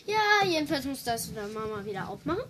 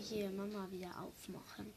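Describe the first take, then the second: First: Speaking up, a bit faster; to someone hard of hearing. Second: Soft unvoiced whisper. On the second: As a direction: whisper it almost inaudibly. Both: Real, not acted. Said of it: "Ja, du musst lauter reden".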